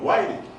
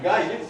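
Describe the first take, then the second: First: The name begins with a gw sound. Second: The name begins with a plain g sound. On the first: This is the form used today. "sino Guaire" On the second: This is the original form of the name. "ya no es Gaire"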